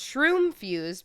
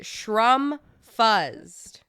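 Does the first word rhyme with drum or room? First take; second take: room; drum. First: The first word has a long vowel like room. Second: The first word has a short vowel like drum. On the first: It is the correct name of the product. The speaker calls it right. "I told him it was pronounced shroom fused" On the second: Someone else mispronounced the name. The speaker calls it wrong. "The customer came in and pronounced it shrum fuzzed"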